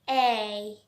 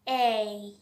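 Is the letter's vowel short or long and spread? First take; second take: long; long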